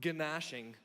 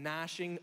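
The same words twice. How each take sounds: First: "gnashing" said as guh-NASH-ing; hard g before the n in "gnashing"; gnashing with sounded g. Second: "gnashing" starting straight on the n; gnashing with silent g. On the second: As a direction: say "gnashing" as NASH-ing. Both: Shown as a demonstration. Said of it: "gnashing or gnashing".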